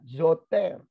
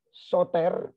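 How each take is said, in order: First: The word begins with a z sound. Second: The word begins with an s sound. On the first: The speaker calls it right. "mestinya, zoter ya" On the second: The speaker calls it wrong. "bukan pakai S mestinya"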